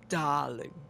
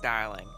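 First: It is said in a sassy voice. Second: It is said in a plain voice.

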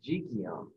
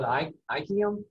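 First: The word begins with a consonant sound. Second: The word begins with a vowel sound.

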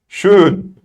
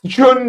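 First: The word begins with a sh sound. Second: The word begins with a ch sound. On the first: The speaker calls it right. "Ş sesi olur" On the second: The speaker calls it wrong. "Çön değil de"

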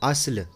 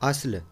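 The two takes are said the same way.

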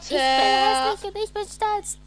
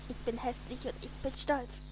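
First: It is said very loudly. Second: It is said at normal, quieter volume.

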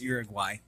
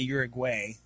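First: The name is said with a Spanish pronunciation. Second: The name is said with an American English pronunciation. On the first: This is the proper pronunciation of the name. "but it's Uruguay" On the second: This is how people in the States say it. "Here in the States, we'd say Uruguay"

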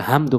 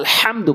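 First: The h is a light, plain breathy sound. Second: The h is a deep sound from the throat. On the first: The speaker calls it wrong. "বলা যাবে না" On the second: The speaker calls it right. "বলতে হবে"

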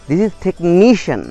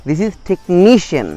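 The two takes are said the same way.

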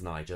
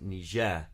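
First: The stress is on the first syllable. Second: The stress is on the second syllable. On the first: It names the river. "the river is Niger" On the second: It names the country. "with stress on the second syllable"

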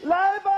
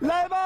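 First: The call is said loudly. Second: The call is said fairly quietly.

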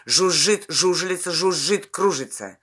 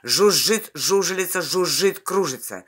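Both takes have the same delivery.

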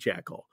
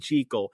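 First: The first syllable does not rhyme with seek. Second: The first syllable rhymes with seek. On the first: This is the familiar everyday pronunciation. "I'll still say Jekyll because I grew up my whole life saying Jekyll" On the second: This is the pronunciation the author intended. "But it is supposed to be Jekyll"

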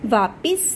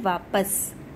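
First: The second syllable is pronounced 'pis'. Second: The second syllable is pronounced 'pas'. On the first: The speaker calls it wrong. "वापिस नहीं होता है" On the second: The speaker calls it right. "शुद्ध उसका होता है वापस"

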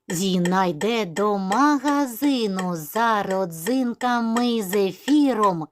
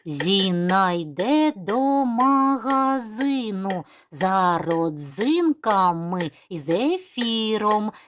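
First: It is spoken at a very quick pace. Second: It is spoken at a quicker pace. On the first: "І ще швидше" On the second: "А зараз вже швидше"

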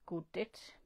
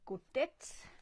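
First: It is said in a Jutlandic accent. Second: It is said in a standard Danish accent.

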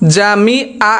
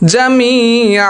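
First: The 'mi' vowel is short, not drawn out. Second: The 'mi' vowel is drawn out long. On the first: The speaker calls it wrong. "জামিআ এটা হবে না" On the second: The speaker calls it right. "জামি মিমিয়াজের মি এখানে টান হবে"

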